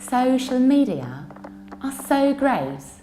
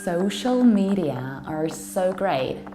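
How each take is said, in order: First: It is spoken in a British accent. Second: It is spoken in an American accent.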